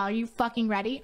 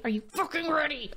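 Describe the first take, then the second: First: Rising, eager hype question with the stress on "fucking"; "Are you fucking ready?" asked upward, lifting on "ready"; hyped question. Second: Falling, firm repeat with the stress on "ready"; "Are you fucking ready?" landed down on "ready"; hyped demand. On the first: Streamer hyping her viewers for the build, asking it upward. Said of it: "hyping herself up to build". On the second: Streamer repeating it to her viewers, landing it firmly. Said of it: "repeats the hype question". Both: Real, not acted.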